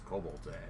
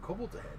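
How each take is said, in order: First: It sounds cautionary, like a serious warning. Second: It sounds eager and delighted, like a treat. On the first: Danger is coming, so be careful. "you better watch out" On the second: Something fun is coming. "more of a promise? ... Like, ooh"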